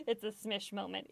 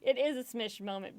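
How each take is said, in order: First: Said in the usual way. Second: "is" spoken in full and stressed. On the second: Real, not acted. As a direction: insist on "is", uncontracted. Repeats it, asserting "is.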